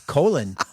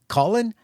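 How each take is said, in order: First: The name is said like the word colon. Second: The name is said like the usual name Collin. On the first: The speaker calls it right. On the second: The speaker calls it wrong.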